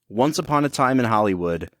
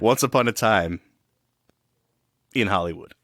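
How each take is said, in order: First: It is said with no pause before 'in'. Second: There is a pause between 'time' and 'in'.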